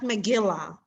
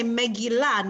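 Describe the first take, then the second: First: MeGILlah, stressed on the middle syllable; wrong stress. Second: MegilLAH, stressed on the last syllable; Megillah, landing on the final syllable; correct stress. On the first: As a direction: say Megillah with the weight on GIL. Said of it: "not Megillah". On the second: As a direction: say Megillah with the weight on LAH. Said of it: "That's the correct way to pronounce it". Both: Shown as a demonstration.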